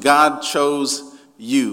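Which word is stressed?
you. The stress is on you.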